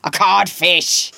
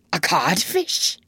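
First: Loud, slow, falling pronouncement; Hook. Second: Slow, whispered, stunned question; blank echo. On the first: Peter insults Hook from hiding, booming as him. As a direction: deliver the insult as a booming pirate captain. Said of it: "answered in Hook's voice". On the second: Hook repeats the insult to himself, blankly. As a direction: echo it under the breath, rising in disbelief. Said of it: "Hook echoed blankly". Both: A narrator's reading.

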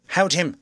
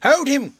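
First: A raised call to hold him; loud. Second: Much higher, much louder cry. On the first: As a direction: call out loudly. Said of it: "said Jaffers loudly". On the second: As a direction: yell it out high and loud. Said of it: "cried everyone". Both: A narrator's reading.

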